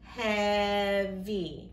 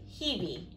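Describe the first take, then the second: First: The first vowel is a short E sound. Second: The first vowel is a long E sound. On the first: The speaker calls it right. "it says the other E sound" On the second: The speaker calls it wrong. "So that should say E"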